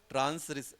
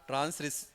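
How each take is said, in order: No difference in how they are said.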